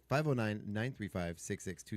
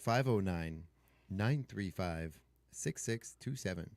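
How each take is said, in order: First: The number is said quickly. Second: The number is said slowly.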